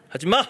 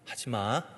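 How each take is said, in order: First: It is said at a raised, high pitch. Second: It is said at a lowered, deep pitch.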